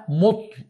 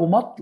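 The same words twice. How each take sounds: First: مطل said "mutl", u after the m; mispronounced with damma. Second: مطل said "matl", short a after the m; correct, with fatha. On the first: Lecturer showing listeners the common error, مطل said as "mutl". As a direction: round the first vowel of مطل into a short u. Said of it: "بضم الميم". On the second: Lecturer correcting a common error, مطل said as "matl". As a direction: open the first vowel of مطل to a short a. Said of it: "والصواب مطل بفتحها". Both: Shown as a demonstration.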